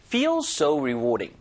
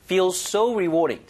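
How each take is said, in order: First: Slow, "Feel" and "rewarding" sharing stress with "so"; spread stress. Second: Slow, with "so" punched louder; stress on so. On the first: Teacher showing stress can be shared, "Feel" and "rewarding" both stressed. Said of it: "양쪽의 강세를 분산시켜도 상관없습니다". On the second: Teacher showing stress can go on so, "so" strongly stressed. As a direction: hit and stretch "so". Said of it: "so의 강세를 주셔도 되고". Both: Shown as a demonstration.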